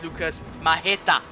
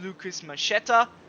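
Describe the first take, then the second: First: The surname is said in a Polish style. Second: The surname is said in an English style. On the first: The speaker calls it right. "the Polish way to pronounce it" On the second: The speaker calls it wrong. "which would be a more English-styled pronunciation"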